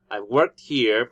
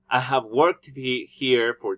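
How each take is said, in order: First: The word 'have' is contracted to a v sound. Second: The word 'have' is said in full.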